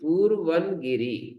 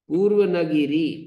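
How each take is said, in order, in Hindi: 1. विराम 'purvan' के ठीक बाद आता है। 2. विराम 'purva' के ठीक बाद आता है। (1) "ऐसा पढ़ेंगे" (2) "ऐसा नहीं"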